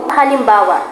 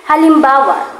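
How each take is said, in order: No difference in how they are said.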